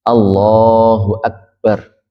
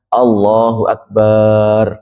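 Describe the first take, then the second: First: The vowel in the final syllable is short. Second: The vowel in the final syllable is lengthened. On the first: The speaker calls it right. "baknya ini yang pendek" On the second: The speaker calls it wrong. "jangan dipanjangkan, jangan dibaca"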